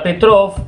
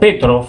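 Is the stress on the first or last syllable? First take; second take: last; first. First: The stress is on the last syllable. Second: The stress is on the first syllable. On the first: The speaker calls it wrong. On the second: The speaker calls it right.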